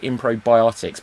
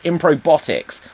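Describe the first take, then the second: First: An extra 'bi' syllable comes before 'otics'. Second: It ends like 'robotics', with no extra syllable. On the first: It sounds like a medicine. The speaker calls it wrong. "I almost called it Improbiotics" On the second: It names a show involving robots. The speaker calls it right. "but it's Improbotics, like robotics"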